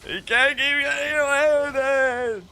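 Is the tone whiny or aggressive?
whiny. It is said in a whiny tone.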